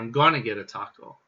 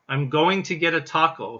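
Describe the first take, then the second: First: The words 'going to' are reduced to 'gonna'. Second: The words 'going to' are said in full. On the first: It carries a sense of anticipation. "you might also hear it pronounced as gonna" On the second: It sounds a little formal. "going to, in this case, actually sounds a little formal"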